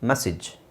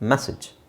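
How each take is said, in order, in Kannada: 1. ಎರಡನೇ ಸ್ವರ ಚಿಕ್ಕ 'i' ಶಬ್ದ. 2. ಎರಡನೇ ಸ್ವರ ಚಿಕ್ಕ 'i' ಶಬ್ದ.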